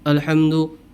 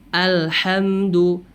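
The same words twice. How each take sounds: First: The opening vowel sounds thick, mouth barely opened. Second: The opening vowel sounds thin, mouth fully opened. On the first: The speaker calls it wrong. "Dan dia menebalkan bunyi a itu" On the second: The speaker calls it right. "maka bunyinya pun akan sempurna, tidak tebal"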